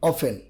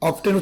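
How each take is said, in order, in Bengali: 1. মাঝখানের t ধ্বনিটি নীরব থাকে। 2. মাঝখানের t ধ্বনিটি উচ্চারিত হয়। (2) "অফটেন উচ্চারণ হবে না"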